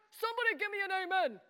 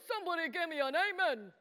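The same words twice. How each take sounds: First: Fast, higher call for a response; quick, pitched-up revival-style prompt; rallying call. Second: Said in the usual way. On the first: Shown as a demonstration. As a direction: fire it at the crowd to rouse them. Repeats the call to the adults.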